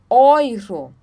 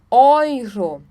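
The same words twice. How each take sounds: First: The first vowel sounds like 'oy'. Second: The first vowel sounds like 'oy'.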